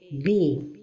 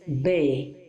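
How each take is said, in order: First: The vowel is a complete i sound. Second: The vowel is incomplete, sounding like e. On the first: The speaker calls it right. "la prononciation correcte est bi" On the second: The speaker calls it wrong. "So don't say be"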